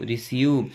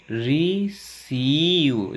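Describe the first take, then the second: First: Said in the usual way. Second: "रिसीव" very slow, split री-सीव; slow syllable-by-syllable model of "रिसीव"; sounded out. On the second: Shown as a demonstration. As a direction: draw out the long ई in "रिसीव". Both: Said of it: "बड़ी ई की ध्वनि लगे".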